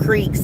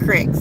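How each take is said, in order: First: The vowel is long, like 'ee'. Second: The vowel is short, like 'i'. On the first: This is how it is said here. The speaker calls it right. "We have creeks" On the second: This is how other regions say it. The speaker calls it wrong. "not cricks"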